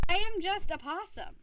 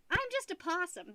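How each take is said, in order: First: "I am just a possum" with AM pushed up and louder; proud declaration, weight on "am"; stress on AM. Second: Said in the usual way. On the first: Shown as a demonstration. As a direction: lean hard on "am" like a declaration. Repeats it, now emphatic.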